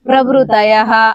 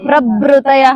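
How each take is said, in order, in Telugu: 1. 'bhru' శబ్దాన్ని తేలికగా పలుకుతారు. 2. 'bhru' శబ్దాన్ని గట్టిగా ఒత్తి పలుకుతారు. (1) "పలికి పలకనట్టుగా ... అలా పలకాలి" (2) "అది వేరే మారుతుంది. ఒత్తుంది"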